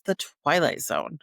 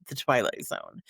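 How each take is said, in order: First: Said in the usual way. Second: The Twilight Zone dropped low and soft, TWILIGHT leaned on, falling; ominous title read. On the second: Shown as a demonstration. Host intoning the show's name for viewers, low and ominous. Title repeated for dramatic effect.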